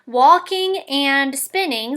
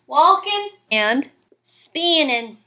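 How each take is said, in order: First: The words end with a full -ing sound. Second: The words end with a short -in sound.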